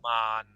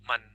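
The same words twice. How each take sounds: First: The word is said slowly and drawn out. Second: The word is said quickly and briefly. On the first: It means mirror or glass. "the speed is slow" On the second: It means sticky. "if I do it quickly"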